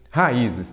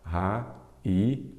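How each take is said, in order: First: Said in the usual way. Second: "Raízes" broken as ra, í, zes with long pauses; split into syllables. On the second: Shown as a demonstration. Teacher separating the plural for students, "Raízes" syllable by syllable. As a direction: say "Raízes" one syllable at a time. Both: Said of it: "Vamos separar".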